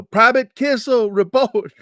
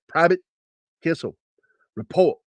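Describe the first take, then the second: First: High, loud drawn-out shout; imitated group yell; everybody yelling. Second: Higher, broken-up military call; mildly barked order; imitated drill sergeant summons. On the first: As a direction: holler it like a whole barracks. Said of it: "I heard everybody yell". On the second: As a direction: summon him word by word. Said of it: "he said it just like".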